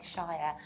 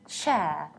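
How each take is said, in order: First: It has a full vowel, like the word 'shire'. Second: It has a reduced vowel, like 'share'. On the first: It is a separate word. "if shire is a completely separate word, then yes, indeed, you pronounce it like shire" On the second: It is part of a bigger word. "you need to reduce it and pronounce it like share"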